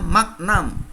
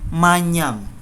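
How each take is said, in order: First: The gn is a hard g followed by n. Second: The gn is said as ny. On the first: The speaker calls it wrong. "Maka salah kalau ada yang mengatakan magnam" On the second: The speaker calls it right. "G N itu dibaca N Y"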